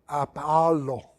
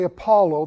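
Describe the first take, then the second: First: It is said with a Greek pronunciation. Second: It is said with an English pronunciation. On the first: The speaker calls it right. "they said Apollo" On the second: The speaker calls it wrong. "They didn't say Apollo"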